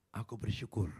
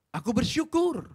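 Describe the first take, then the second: First: Said in the usual way. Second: Bersyukur cried out high and loud; loud proclamation. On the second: Shown as a demonstration. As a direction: proclaim bersyukur with full force.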